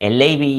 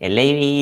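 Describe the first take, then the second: Both takes have the same delivery.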